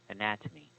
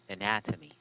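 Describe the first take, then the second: First: The stress is on the second syllable. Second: The stress is on the second syllable.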